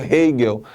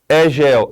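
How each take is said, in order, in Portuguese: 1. O nome é falado com pronúncia alemã. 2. O nome é lido como a grafia portuguesa sugere. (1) "respeitando aí os nomes nas suas línguas de origem" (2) "tem que ler como a gente está vendo"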